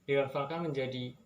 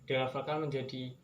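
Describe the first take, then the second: Both takes have the same delivery.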